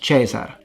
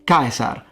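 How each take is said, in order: First: The first consonant is a soft sound. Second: The first consonant is a hard k sound. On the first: The speaker calls it wrong. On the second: The speaker calls it right. "pronounced like a K"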